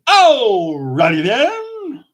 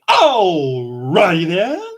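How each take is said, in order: First: A bold, exaggerated character voice. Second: A weak, half-hearted character voice. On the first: The speaker calls it right. "let's try that again" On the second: The speaker calls it wrong. "that was pathetic"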